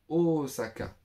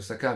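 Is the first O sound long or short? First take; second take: long; short. First: The first O is held long, Japanese style. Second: The first O is short, French style. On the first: "le dire à la japonaise ... deux O" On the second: "on le dit à la française Osaka"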